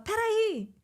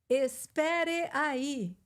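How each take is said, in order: First: The phrase is shortened into one quick word. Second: Every syllable of the phrase is fully pronounced. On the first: The speaker calls it right. "a gente fala" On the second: The speaker calls it wrong. "a gente não fala"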